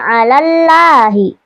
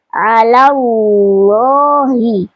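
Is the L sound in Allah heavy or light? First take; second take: light; heavy. First: The L in Allah is thin and light. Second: The L in Allah is thick and heavy. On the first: The speaker calls it wrong. "Tidak alallahi" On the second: The speaker calls it right. "Lafaz Allah dibaca tebal"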